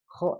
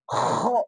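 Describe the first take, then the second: First: It is said plainly without extra throat pressure. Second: It is pressed hard deep in the throat. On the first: The speaker calls it right. "Kho aja biasa" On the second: The speaker calls it wrong. "Misalnya menekan ke tenggorokan"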